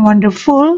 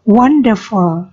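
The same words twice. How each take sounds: First: The stress is on the last syllable. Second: The stress is on the first syllable. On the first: The speaker calls it wrong. "Bukan full, bukan wonderful" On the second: The speaker calls it right. "dengan tekanan pada one"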